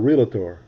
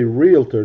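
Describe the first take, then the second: First: The word is said with an extra middle vowel. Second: The word is said without an extra middle vowel. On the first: The speaker calls it wrong. "He's throwing an extra vowel in there" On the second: The speaker calls it right. "you should say realtor"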